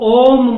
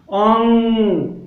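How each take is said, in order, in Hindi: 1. अंत मुँह से निकलने वाला स्पष्ट m है। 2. अंत नाक से निकलने वाली गुंजन है। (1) "लोग ओम बोलते हैं" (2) "ओंग होता है ये"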